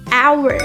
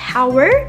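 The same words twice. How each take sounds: First: It begins directly with a vowel sound. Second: It begins with an audible H sound. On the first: The speaker calls it right. "The correct pronunciation is hour" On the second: The speaker calls it wrong. "trying to pronounce the H sound like hour"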